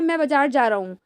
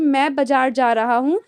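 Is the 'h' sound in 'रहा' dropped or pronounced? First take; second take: dropped; pronounced. First: The h sound in रहा is dropped. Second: The h sound in रहा is pronounced. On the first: This is casual everyday speech. "हा का sound ही नहीं आता" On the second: This is standard formal speech. "जो standard Hindi होती है वो ऐसे बोलते हैं"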